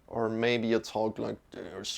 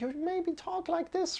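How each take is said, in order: First: It is said in a very deep voice. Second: It is said in a very high voice.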